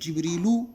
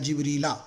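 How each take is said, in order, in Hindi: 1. शब्द का अंत u स्वर से होता है। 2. शब्द का अंत a स्वर से होता है। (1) "या तो पेश आएगा या तो ज़बर आएगा" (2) "या तो पेश आएगा या तो ज़बर आएगा"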